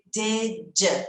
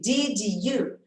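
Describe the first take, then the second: First: The two words are blended into one sound. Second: The two words are said separately. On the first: "eu vou juntar esses dois sons" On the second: "ao invés de did you"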